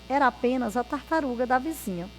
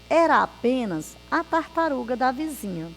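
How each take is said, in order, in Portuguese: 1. É lido rápido, como um trava-língua. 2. É lido devagar e com cuidado. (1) "é bem rápido" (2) "Aqui eu li para vocês compreenderem"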